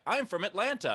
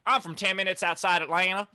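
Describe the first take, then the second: First: Said in the usual way. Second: Higher-pitched, twangy country-accent imitation. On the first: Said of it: "It is so weird, though". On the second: People living just outside Atlanta, imitated country accent. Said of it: "that's the incest accent?".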